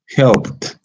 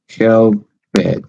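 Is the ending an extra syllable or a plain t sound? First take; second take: plain t; extra syllable. First: The ending is a plain t sound. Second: The ending adds an extra syllable. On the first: The speaker calls it right. "the ed is pronounced as a t" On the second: The speaker calls it wrong. "if you add a syllable, you might you are going to pronounce this way"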